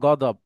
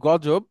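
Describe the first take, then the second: First: The middle consonant is a d sound. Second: The middle consonant is a j sound. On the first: This is the Arabic form. "আরবিতে সেটা গদব" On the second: This is the Bengali form. "আমরা যেটাকে বলি গজব"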